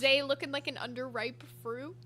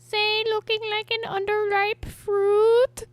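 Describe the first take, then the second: First: It is said in his ordinary natural voice. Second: It is said in a put-on cartoon character voice.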